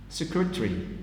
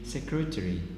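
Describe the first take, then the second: First: The vowel before the R is dropped. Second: The vowel before the R is fully sounded. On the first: "but the omission will be secretary" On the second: "It should be secretary"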